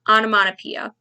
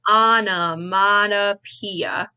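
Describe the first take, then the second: First: It is said at normal speed. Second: It is said slowly.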